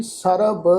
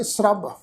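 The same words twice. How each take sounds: First: "ਸਰਬ" as sa-ra-b, full vowel after s; separated syllables. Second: "ਸਰਬ" as srab, s and r run together; joined consonants. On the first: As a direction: say "ਸਰਬ" with s and r split apart. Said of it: "ਇਸ ਢੰਗ ਨਾਲ ਪਾਠ ਉਚਾਰਨ ਨਹੀਂ ਕਰਨਾ". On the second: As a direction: say "ਸਰਬ" with no vowel between s and r. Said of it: "ਇਸ ਸ਼ਬਦ ਦਾ ਪਾਠ ਉਚਾਰਨ ਕਰਾਂਗੇ". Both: Shown as a demonstration.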